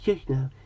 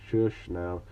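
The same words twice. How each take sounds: First: It is said in an imitated character voice. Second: It is read in the speaker's normal voice.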